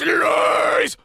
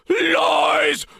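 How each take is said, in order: First: It is said with tight, high constriction. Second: It is said without the high constriction.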